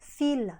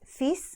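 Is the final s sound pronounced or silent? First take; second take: silent; pronounced. First: The final s sound is silent. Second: The final s sound is pronounced. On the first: It means several threads. "ถ้าเราไม่ออกเสียง, s, แล้วออกเสียงว่า" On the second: It means a son. "ที่แปลว่าลูกชาย"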